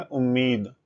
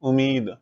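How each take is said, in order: First: उम्मीद with a doubled, held म; correct pronunciation. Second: Said in the usual way. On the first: Shown as a demonstration. Teacher models the correct pronunciation for students, म held double in उम्मीद. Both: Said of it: "इसका सही उच्चारण है".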